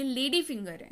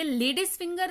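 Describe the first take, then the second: First: "लेडी finger" with no S after the first word; correct form. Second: "लेडीज finger" with an S sound closing the first word; wrong form. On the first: Teacher giving learners the right name, "लेडी finger" said without the S. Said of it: "ये लेडी finger है". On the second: Teacher correcting a common mistake, "लेडीज finger" said with the extra S. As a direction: say "लेडीज finger", adding the plural S. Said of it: "ये लेडीज finger नहीं है". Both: Shown as a demonstration.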